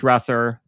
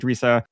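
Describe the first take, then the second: First: The word is said in a plain American accent. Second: The word is said in an Australian accent.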